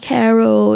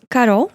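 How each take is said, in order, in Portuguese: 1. O nome tem pronúncia inglesa. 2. O nome tem pronúncia portuguesa. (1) "Aqui em inglês, né, o pessoal fala Carol" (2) "Mas Carol"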